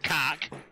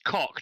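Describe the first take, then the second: First: The vowel is the 'a' sound of cat. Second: The vowel is the 'o' sound of cot. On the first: The speaker calls it wrong. "not cack" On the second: The speaker calls it right. "It's cock"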